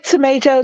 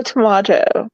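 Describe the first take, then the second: First: "tomato" as tuh-MAY-toh; long A as in "day" in "tomato"; pronunciation contrast. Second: "tomato" as tuh-MAH-toh; broad "ah" in the middle of "tomato"; pronunciation contrast. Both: Shown as a demonstration. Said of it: "depending upon how you say it".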